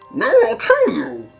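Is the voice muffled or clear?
muffled. It is said in a muffled, unclear put-on voice. "he sounds as if he had smallish bees up his nose"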